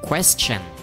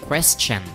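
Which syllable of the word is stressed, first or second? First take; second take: first; first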